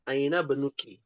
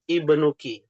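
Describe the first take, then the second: First: The initial i vowel drops after the word before. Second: The word begins with a clear i vowel. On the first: The word is joined to the word before. "ketika bersambung menjadi sukun" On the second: The word stands alone. "Kalau dia ber, berdiri sendiri"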